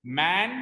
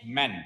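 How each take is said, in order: First: "मैन" with a long, open A as in "man"; long vowel. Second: "मैन" short and lower, like "men"; short vowel. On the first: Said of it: "ए को उसमें लंबा खींचते हैं". ("मैन" का ए लंबा खींचकर) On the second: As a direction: keep the vowel of "मैन" unstretched, pitch dropped. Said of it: "इसमें ए को लंबा नहीं खींचते हैं". ("मैन" छोटे स्वर के साथ, नीचे सुर में) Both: Shown as a demonstration.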